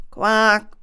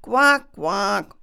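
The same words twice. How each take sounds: First: A loud mock frog croak. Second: Frog croaks. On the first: Frogs at the pond call out with a loud croak. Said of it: "riefen die Frösche". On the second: Acted.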